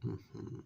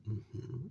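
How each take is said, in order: Both takes have the same delivery.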